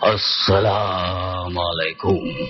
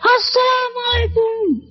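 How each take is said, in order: First: It is said in a deep, heavy voice. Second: It is said in a thin, high voice.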